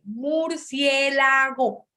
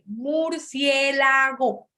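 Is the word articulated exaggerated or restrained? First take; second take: exaggerated; exaggerated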